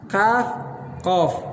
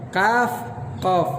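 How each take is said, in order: Both takes have the same delivery.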